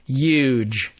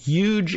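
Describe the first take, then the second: First: The word is said with an odd, imitated pronunciation. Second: The word is said with standard American pronunciation. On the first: It mimics someone else's habit. The speaker calls it wrong. "That's a weird pronunciation" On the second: It is how most speakers say it. The speaker calls it right. "American English speakers say huge"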